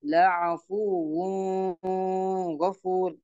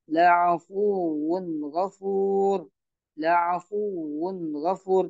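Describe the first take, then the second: First: Slow recitation, long hum ending "la'afuwun"; wrong held nun. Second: Slow recitation, clean N ending "la'afuwun"; no hum on "la'afuwun"; correct clear nun. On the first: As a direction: stretch "wun" of "la'afuwun" before "ghafur". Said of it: "Tidak boleh membacanya". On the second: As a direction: go directly from "la'afuwun" into "ghafur". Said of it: "Tidak boleh". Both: Shown as a demonstration.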